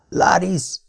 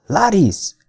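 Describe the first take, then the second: First: Higher-pitched, hoarse call of a name. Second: High, falling call of a name; repeated call. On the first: Bound man calling after the vanished woman, hoarse. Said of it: "mondtam rekedten". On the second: Man calling again for the vanished woman, calling out. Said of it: "ismételtem". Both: A narrator's reading.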